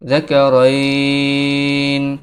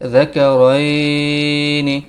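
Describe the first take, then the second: First: The word ends sharply on the n sound. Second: The word ends with a short i vowel. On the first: "অক্ফের আগে যদি লিনের হরফ আসে তখন এটাকে দুই আলিফ টেনে পড়তে হয়" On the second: "নুন জেন্নি"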